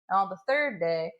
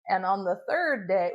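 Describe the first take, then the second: First: It is said in a Southern American accent. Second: It is said in the speaker's ordinary accent.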